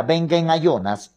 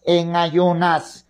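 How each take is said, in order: First: Said in the usual way. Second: En ayunas stretched slowly, each syllable held; slow emphatic repeat of en ayunas; slow, drawn-out repeat. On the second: Shown as a demonstration. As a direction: lean on en ayunas and drag it out.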